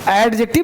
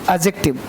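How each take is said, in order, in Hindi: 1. d की आवाज़ बोली जाती है। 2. d की आवाज़ चुप रहती है। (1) "एडजेक्टिव नहीं बोलना" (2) "डी साइलेंट होता है वाइल स्पीकिंग"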